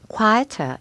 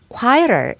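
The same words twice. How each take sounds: First: It is said with a British accent, r dropped. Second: It is said with an American accent, r pronounced. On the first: "영국 언니께서 quieter 이렇게 발음이 됩니다" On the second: "이렇게 느끼한 게 좋아요. 그거는 미국식 발음이고요"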